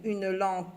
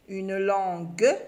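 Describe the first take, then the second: First: LANGUE said "lanque", with k for g; wrong k ending. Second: LANGUE slow, ending in a sounded "gue"; correct g ending. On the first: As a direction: say "langue" as "lan-que", hard k. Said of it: "faire travailler les oreilles". (« langue » prononcé « lanque », avec un k) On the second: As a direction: say "langue" in two beats, "lan-gue", hard g. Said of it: "on doit dire une langue". (« langue » lentement, finale « gue » appuyée) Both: Shown as a demonstration.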